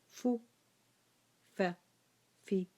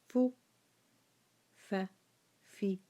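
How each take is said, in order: Both takes have the same delivery.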